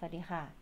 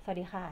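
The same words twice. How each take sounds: No difference in how they are said.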